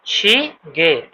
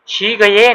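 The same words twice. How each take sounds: First: "शी गे" drawn out very slowly, ending in a short "ge"; careful model of "शी गे" with a short "ge" ending; correct reading. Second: "शी गये" with a full "gaye" ending, the wrong way; "शी गये" misread with a "gaye" ending; wrong reading. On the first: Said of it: "ठीक है, इस तरह". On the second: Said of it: "नहीं है ये". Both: Shown as a demonstration.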